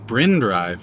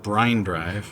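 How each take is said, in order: First: The name has a short 'ih' vowel. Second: The name has a long 'eye' vowel. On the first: The speaker calls it right. "which is incidentally Bryn Drive" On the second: The speaker calls it wrong. "not Brine Drive"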